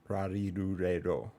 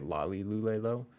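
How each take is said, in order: First: The syllables start with an R-like sound. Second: The syllables start with a clear L sound. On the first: The speaker calls it right. "it's more like" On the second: The speaker calls it wrong. "some places say"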